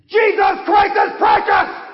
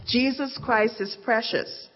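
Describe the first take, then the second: First: High, full-force pulpit shout; shouting old preacher. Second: Said in the usual way. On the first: Acted. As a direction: make the rafters ring with it. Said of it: "the old preacher shouted anew".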